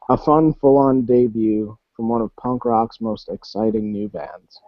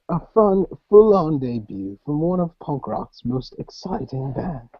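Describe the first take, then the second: First: It is read in the speaker's own accent. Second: It is read in a British accent.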